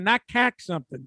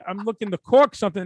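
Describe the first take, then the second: First: "cack" with a flattened a vowel; Boston-style "cack". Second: "cork" said with its rounded vowel; stress on cork. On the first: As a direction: say "cack", the mock-Boston caulk. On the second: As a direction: set "cork" apart from "cack". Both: Shown as a demonstration. Contrasts cork with Boston cack.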